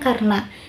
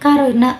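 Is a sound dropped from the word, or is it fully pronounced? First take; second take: dropped; fully pronounced. First: One sound of the word is dropped. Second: Every sound of the word is pronounced. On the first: The speaker calls it wrong. "bukan karena" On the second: The speaker calls it right. "seharusnya dilafalkan karena"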